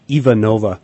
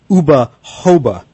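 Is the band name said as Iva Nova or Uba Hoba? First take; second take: Iva Nova; Uba Hoba. First: The name is said as Iva Nova. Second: The name is said as Uba Hoba. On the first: The speaker calls it right. "the right way to pronounce it is Iva Nova" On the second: The speaker calls it wrong. "if you looked at the CD, I guess you would think that their name was Uba Hoba"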